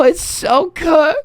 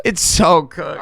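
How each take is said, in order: First: It's so cooked drawn out slow and high, rising at the end; stretched lament. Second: Said in the usual way. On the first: Real, not acted. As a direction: wail "cooked" upward. Despair over simmed game.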